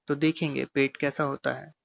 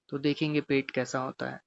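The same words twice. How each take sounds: The two takes are said the same way.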